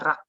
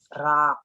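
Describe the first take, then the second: First: The vowel is short and quick. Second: The vowel is stretched out long. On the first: The speaker calls it right. "Maunya cepat bacanya rak" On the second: The speaker calls it wrong. "Kalau ada penekanan nanti dia jadinya mad"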